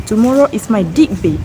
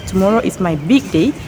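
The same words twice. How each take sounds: First: "dig" said with a hard D, a slip for big; spoonerism. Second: Said in the usual way. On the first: Shown as a demonstration. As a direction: swap the first sounds: "dig day" with D. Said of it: "shows the interchange of two initial sounds". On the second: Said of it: "instead of".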